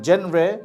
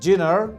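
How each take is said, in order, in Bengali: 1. এটি jen-ray-এর মতো উচ্চারিত হয়, j ধ্বনি সহ। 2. এটি jee-nar-এর মতো উচ্চারিত হয়, j ধ্বনি সহ। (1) "নট জেনরে" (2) "নট জিনার"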